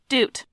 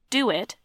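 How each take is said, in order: First: The two words merge into one syllable. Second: The two words are said as two syllables.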